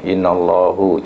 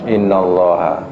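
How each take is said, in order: First: The word ends with an 'u' vowel. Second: The word ends with an 'a' vowel. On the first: The speaker calls it wrong. "itu kesilapan lah" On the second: The speaker calls it right. "Yang betul apa?"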